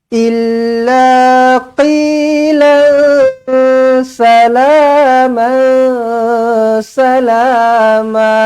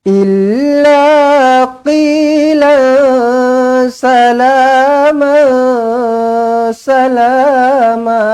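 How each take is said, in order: Both takes have the same delivery.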